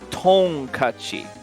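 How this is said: The word is pronounced in a Japanese way. The speaker calls it right. "I actually looked up the pronunciation. It's Tonkachi"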